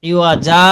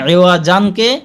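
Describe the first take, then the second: First: The word ends on a drawn-out vowel. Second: The word ends with an n sound. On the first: The reader stops on this word. "সেখানে একালিফ টান দিয়ে পড়তে হবে" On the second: The reader keeps going without stopping. "তানবিনের মতন উচ্চারণ হবে না"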